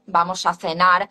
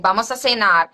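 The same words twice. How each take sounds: First: "vamos a cenar" with a lisped th in cenar; Castilian: "cenar" as thenar, rising end; Spain Spanish accent. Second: "vamos a cenar" with an s in cenar; Latin American accent. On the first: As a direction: acento de España: "cenar" con zeta. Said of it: "standard Spanish pronunciation". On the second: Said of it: "speaking in some Latin accent like". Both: Shown as a demonstration.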